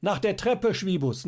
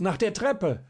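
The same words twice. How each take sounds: First: High, loud call with stress on Treppe; shouting up. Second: High, loud call, stress on der, falling; shouting up. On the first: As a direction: yell up to the window, Treppe rising. (lauter Ruf, Betonung auf Treppe) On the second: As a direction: repeat it urgently, landing on der. (lauter Ruf, Betonung auf der) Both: A narrator's reading. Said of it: "schrie ihm jetzt Schierling zu".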